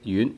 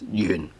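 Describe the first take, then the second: First: The word is said with a high pitch. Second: The word is said with a low pitch. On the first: "promote lower pitch uh, words into uh, a high pitch word... tone two instead of tone six" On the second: "the original uh, pronunciation of the word is yun... Tone six, which is the lowest pitch"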